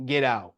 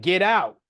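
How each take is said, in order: First: Said in the usual way. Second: Louder, higher mock yell; retold yell. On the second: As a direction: act out the principal yelling an order. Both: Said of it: "she's yelling at this point".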